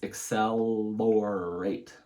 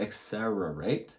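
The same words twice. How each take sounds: First: The middle consonant is said as an L. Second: The middle consonant is said as an R. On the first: The speaker calls it right. "It's accelerate. So it goes L between your teeth" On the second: The speaker calls it wrong. "So you got the first R wrong. It's an L. So it's not accelerate"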